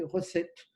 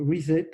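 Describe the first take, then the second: First: "recette" said as the French word for recipe; prononcé à la française. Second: "reset" said as the English word, ree-set; English word pronunciation. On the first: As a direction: say "recette" with plain French vowels. (« recette » prononcé comme le mot français) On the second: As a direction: say "reset" the English way, not like French recette. (« reset » prononcé à l'anglaise, ri-sète) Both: Shown as a demonstration. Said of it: "pas recette au sens".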